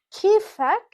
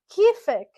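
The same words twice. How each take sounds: First: "kifak" said with -ak, higher and louder; Levantine pronunciation. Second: "kifik" said with -ik, higher and louder; Levantine pronunciation. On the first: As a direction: model "kifak" brightly for a man. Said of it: "In Levantine dialect". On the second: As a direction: model "kifik" for a woman. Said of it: "if we're talking to a female". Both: Shown as a demonstration.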